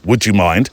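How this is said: It is said in a demanding, insistent tone. The request assumes and pushes in. The speaker calls it wrong. "Not a demanding"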